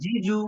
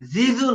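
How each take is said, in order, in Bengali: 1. ব্যঞ্জনধ্বনিটি স্পষ্ট j-এর মতো শোনায়। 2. ব্যঞ্জনধ্বনিটি গুঞ্জনের z-এর মতো শোনায়।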